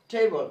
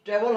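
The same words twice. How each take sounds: First: ট্রেবল with a glide, "tei-bol"; correct "table". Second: ট্রেবল with a short e, "tebel"; mispronounced "table". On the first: Teacher repeating the right reading of table, glided "tei-bol". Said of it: "হবে". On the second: Teacher rejecting the wrong reading of table, mispronounced "tebel". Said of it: "ট্রেবল হচ্ছে না". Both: Shown as a demonstration.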